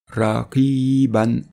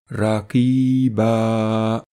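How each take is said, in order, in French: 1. Le mot est prononcé sous sa forme liée complète. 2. Le mot est prononcé sous sa forme abrégée de pause. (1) "sans faire de pause" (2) "comme si on faisait une pause"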